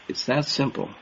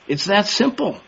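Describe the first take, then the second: First: Quiet repeat. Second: High emphatic. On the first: Preacher quietly echoing his own point to the brethren, soft. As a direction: let "simple" fall away, almost to yourself. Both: Shown as a demonstration. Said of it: "repeated for emphasis".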